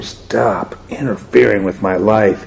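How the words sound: The line is said in a harsh, heated tone. The speaker calls it right. "Her tone, it went over"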